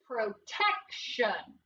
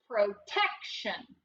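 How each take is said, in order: First: Protection drawn out slowly, syllable by syllable; slow blended word. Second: Said in the usual way. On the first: Shown as a demonstration. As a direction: stretch out Protection slowly for the kids. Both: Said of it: "What's the word?".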